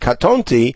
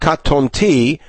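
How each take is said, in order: First: The stress is on the middle syllable. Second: The stress is on the final syllable. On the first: The speaker calls it right. "I know to read it katonti ... because the trope mark is over the tet" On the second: The speaker calls it wrong. "and not katonti ... not over the tav and yod at the end"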